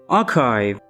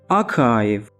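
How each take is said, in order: First: It is said with a British accent. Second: The same.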